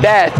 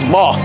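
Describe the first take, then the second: First: The word has an American-style vowel. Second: The word has a London-style vowel. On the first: The speaker calls it wrong. "So not bath" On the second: The speaker calls it right. "it's bath"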